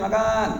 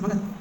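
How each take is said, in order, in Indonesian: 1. Vokalnya diucapkan panjang. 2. Vokalnya diucapkan pendek. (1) "kalau dipanjangin" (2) "Terus pendek kan?"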